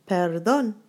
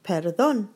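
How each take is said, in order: Both takes have the same delivery.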